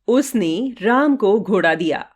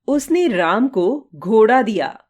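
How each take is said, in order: First: The stress is on उसने. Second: The stress is on घोड़ा.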